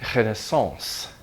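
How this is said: It is said with a French pronunciation. "say the proper French pronunciation"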